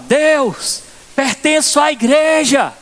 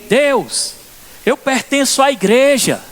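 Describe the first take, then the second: First: It is shouted loudly. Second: It is said quietly, without shouting.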